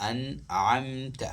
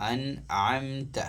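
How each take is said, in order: Both takes have the same delivery.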